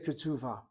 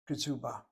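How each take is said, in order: First: The middle consonant is a V sound. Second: The middle consonant is not a V sound.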